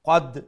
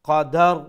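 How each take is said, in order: First: The word ends on d with no r heard. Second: A short a vowel is inserted between d and r. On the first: "রা এন্ডে শোনা গেল না" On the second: "দালের উপরে জবর দিয়া আমি উচ্চারণ করলাম"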